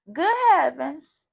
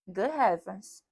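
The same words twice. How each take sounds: First: Higher, louder and slow, stretched out; mock astonished. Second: Said in the usual way. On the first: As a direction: ham up the astonishment, drawn out. Repeats phrase, second one hammed.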